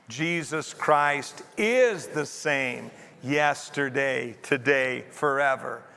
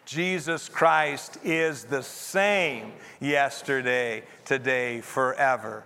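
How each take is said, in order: First: The stress is on the word is. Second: The stress is on the word same.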